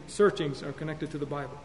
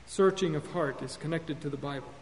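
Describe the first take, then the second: First: "searchings" with a clear final z; "searchings" said plural, ending in z; "searchings" with the plural z sound; corrected plural. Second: "Searching" said singular, no final s; "Searching" ends on the ng, no z; "Searching" without the plural ending; first word form. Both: Shown as a demonstration.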